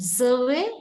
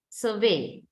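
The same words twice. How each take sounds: First: "survey" stressed on SUR, rising at the end; noun stress on first syllable. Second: "survey" stressed on VEY, falling; verb stress on second syllable. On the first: Teacher reads the noun of the pair, first-syllable stress on "survey". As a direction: hit SUR in "survey", lift the ending. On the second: Teacher reads the verb of the pair, second-syllable stress on "survey". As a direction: lean on VEY in "survey" and drop. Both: Shown as a demonstration. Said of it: "find the syllable which is stressed".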